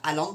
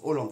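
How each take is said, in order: First: The first vowel is pronounced like 'a'. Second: The first vowel is pronounced like 'o'. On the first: The speaker calls it wrong. "C'est pas Haaland" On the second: The speaker calls it right. "Ça se prononce Hollande. ... donc ça se prononce O"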